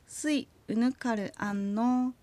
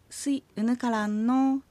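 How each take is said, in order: First: Spoken slowly with 'unukar' and 'an' kept apart. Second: Spoken at normal speed with 'unukar' and 'an' merged. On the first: "ゆっくり話すときは" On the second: "普通の速さになるときはうぬかるとあんがくっついて"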